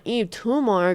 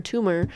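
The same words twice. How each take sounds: First: Tumor said with a rolled, exotic flair; spicy pronunciation. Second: Said in the usual way. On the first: Shown as a demonstration. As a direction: give Tumor a spicy foreign twist. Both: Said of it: "I wanna pronounce [name] so, so spicy".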